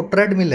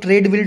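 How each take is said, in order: First: "ट्रेडमिल" said as tred-mill, short e; corrected pronunciation. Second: "ट्रेडमिल" said as trade-mill, long ay vowel; common mispronunciation. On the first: Teacher correcting the common error, "ट्रेडमिल" pronounced tred-mill with short e. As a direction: say "ट्रेडमिल" with first syllable rhyming with "bed". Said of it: "ट्रेडमिल है". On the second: Teacher quoting how some people say it, mispronounced "ट्रेडमिल" as trade-mill. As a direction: say "ट्रेडमिल" wrongly, first syllable like "trade". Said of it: "ट्रेडमिल बोलते रहते हैं". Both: Shown as a demonstration.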